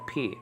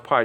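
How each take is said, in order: First: P said as "pee"; correct Greek pi. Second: Pi said like English "pie"; wrong Greek pi. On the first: Teaching learners the Greek letter, P as "pee". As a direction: say P like the English letter name. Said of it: "Just pronounce it P". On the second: Showing learners the mistaken letter name, Pi as "pie". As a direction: say Pi to rhyme with "eye". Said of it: "not supposed to be pronounced Pi". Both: Shown as a demonstration.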